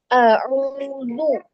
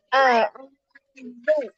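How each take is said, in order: First: The dh sound is heavy, with rounded lips. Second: The dh sound is light, with spread lips. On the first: The speaker calls it wrong. "kalau seperti itu dia tebal" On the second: The speaker calls it right. "nah dia tipis"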